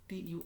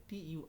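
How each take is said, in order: The two takes are said the same way.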